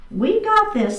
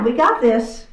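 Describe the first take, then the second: First: Higher, bright rallying repeat; upbeat encouragement. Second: Said in the usual way. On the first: Real, not acted. Instructor cheering the class on before the other side, higher. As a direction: lift it up to cheer them on.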